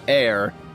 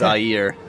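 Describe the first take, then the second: First: It sounds like the English word air. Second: It does not sound like the word air. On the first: The speaker calls it wrong. "everybody goes air" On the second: The speaker calls it right. "but it's Ayer"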